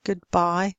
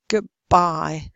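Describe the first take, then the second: First: "goodbye" with a clear d; unassimilated d. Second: "goodbye" said as "goobbye"; assimilated d. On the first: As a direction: keep d distinct before b in "goodbye". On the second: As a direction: turn d to b in "goodbye". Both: Shown as a demonstration. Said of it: "the same thing happens".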